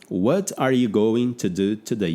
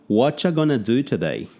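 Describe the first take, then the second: First: Every word is pronounced fully and separately. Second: Words are dropped and blended into a reduced form. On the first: This is the textbook form of the phrase. The speaker calls it wrong. "eu aprendia uma frase como" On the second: This is how people actually say the phrase. The speaker calls it right. "eu vi que o pessoal não falava desse jeito. Eles falavam"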